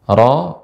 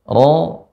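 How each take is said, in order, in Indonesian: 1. Bunyi r diucapkan ringan dan tidak dinaikkan. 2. Bunyi r diucapkan berat dan dinaikkan. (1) "Ro ini kurang naik" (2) "ro naik"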